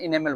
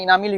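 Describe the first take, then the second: First: The word is said as 'inemal'. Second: The word is said as 'inamil'. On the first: "लेकिन इनेमल बोलेंगे" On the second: "इनामिल भी बोल सकते हैं"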